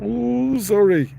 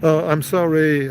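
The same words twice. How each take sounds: First: Put-on high, loud, drawn-out child's sorry; grudging mock apology. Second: Louder, plainer imitated apology; proper apology. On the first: Bully boy told to apologize, high mock sorry. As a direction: imitate a bully boy's token apology, pitched high. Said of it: "he sort of went". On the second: Boy pushed by father to apologize, proper retold sorry. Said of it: "Apologize properly".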